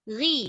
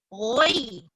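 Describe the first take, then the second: First: The syllable is said with spread, unrounded lips. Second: The syllable is said with rounded, pouted lips. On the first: The speaker calls it right. "sikit sahaja" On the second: The speaker calls it wrong. "jangan roi, jangan muncung"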